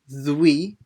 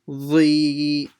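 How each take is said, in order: First: A w sound follows the consonant. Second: No w sound follows the consonant. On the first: The speaker calls it wrong. "it's not dwi" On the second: The speaker calls it right. "there's no w sound in it"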